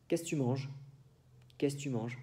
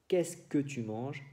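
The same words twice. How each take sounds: First: "que tu" clipped to "t'"; spoken French. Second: "que tu" said in full; full written French. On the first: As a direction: swallow the que, say "qu'est-c' t'manges". (francés hablado, se quita el "que") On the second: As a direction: pronounce "que tu manges" completely. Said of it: "En lugar de decir". (francés escrito, "que tu" completo) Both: Shown as a demonstration.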